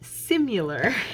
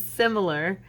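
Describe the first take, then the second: First: The middle syllable has an added 'u' sound. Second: The middle syllable has a plain 'i' sound. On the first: The speaker calls it wrong. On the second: The speaker calls it right.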